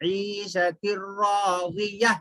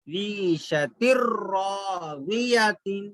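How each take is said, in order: First: रादिया ending in a breathed h, no तिन; stopping on ha. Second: रादिया तिन with the final तिन sounded, slow recitation; reading as written. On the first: Teacher showing how to stop on round ta, ending on ha. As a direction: recite ईशतिर रादिया slowly, closing on h instead of t. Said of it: "ता को हा बना देंगे". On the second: Teacher showing the written ending before explaining the stop, slow recitation. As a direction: draw out ईशतिर रादिया तिन, ending on a clear n. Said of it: "राजिया तिन लिखा हुआ है". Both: Shown as a demonstration.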